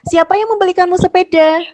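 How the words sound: It is read with questioning intonation. The speaker calls it right. "Yang kedua, intonasinya harus betul ya"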